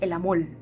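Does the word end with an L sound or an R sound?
L sound. The word ends with an L sound. "ellos dicen el amor"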